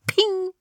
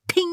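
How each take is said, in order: First: High sung ding, falling off; ping like a lift bell. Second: Said in the usual way. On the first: A narrator's reading. Aufzug hält, Klingelton nachgemacht. (hoher Aufzugs-Pling)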